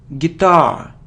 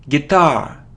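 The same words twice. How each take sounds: No difference in how they are said.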